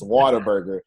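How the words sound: The first part sounds like 'water', Texan style.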